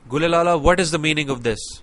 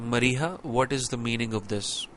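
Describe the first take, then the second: First: It is asked in an angry tone. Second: It is asked in a calm, normal tone.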